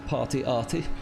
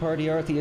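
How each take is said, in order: First: The name is said in a German accent. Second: The name is said in a plain accent.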